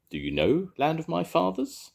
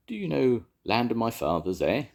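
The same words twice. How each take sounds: First: High, bright-toned little dragon; small dragon. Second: Lightly voiced small dragon; a gentle, higher dragon asking. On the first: The dragon repeating its question, higher and hopeful. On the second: The dragon asking the engines about the song, lightly voiced. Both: A narrator's reading.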